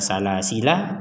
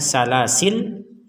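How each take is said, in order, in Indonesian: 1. Kata ini diakhiri dengan vokal 'a'. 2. Kata ini berhenti pada bunyi 'l' di akhir. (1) "isbatul alif al akhirah" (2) "waqaf di lam menjadi sukun"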